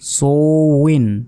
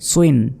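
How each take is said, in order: First: The syllable is drawn out slowly. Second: The syllable is said quickly.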